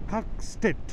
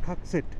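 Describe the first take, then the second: First: It has a t sound after the s. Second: It has no t sound after the s. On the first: The speaker calls it wrong. "খাকস্টেট এই জায়গাটার নাম" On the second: The speaker calls it right. "Actually উচ্চারণ হয় হচ্ছে খাকসেট"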